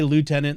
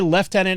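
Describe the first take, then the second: First: It is said the American way, like lootenant. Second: It is said the British way, like leftenant. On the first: "I'll probably say" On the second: "I'm not going to say"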